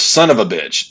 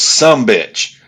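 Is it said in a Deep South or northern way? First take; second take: northern; Deep South. First: It is said fully as "son of a bitch". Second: It is reduced to "some bitch", Deep South style.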